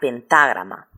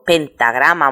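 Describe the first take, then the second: First: The stress falls on the syllable 'ta'. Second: The stress falls on the syllable 'gra'. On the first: "acentuarla sobre la primera a, como si pronunciara pentágrama" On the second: "se recomienda no acentuarse"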